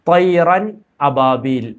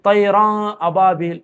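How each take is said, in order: First: The n sound is pronounced clearly. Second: The n sound is dropped and merged. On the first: The speaker calls it right. "തൈറൻ അബാബിൽ എന്നാണ് അവിടെ ഓതേണ്ടുന്നത്" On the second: The speaker calls it wrong. "അങ്ങനെ മണിക്കാനോ അങ്ങനെയുള്ള പരിപാടിക്കൊന്നും നിൽക്കാൻ പാടില്ല"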